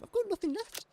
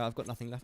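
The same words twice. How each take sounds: First: Much higher, put-on cry of despair; high silly voice. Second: Said in the usual way. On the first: To chat about his worn-out brain, high mock wail. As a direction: jump way up in pitch, hammed-up.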